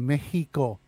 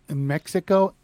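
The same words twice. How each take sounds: First: The x is said as an h sound. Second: The x is said as a ks sound.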